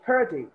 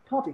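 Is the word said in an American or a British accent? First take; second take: American; British. First: It is said with an American accent. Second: It is said with a British accent. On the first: "If it's American, they will call it parity" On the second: "since I go with British English, I don't call it this way. I call it party"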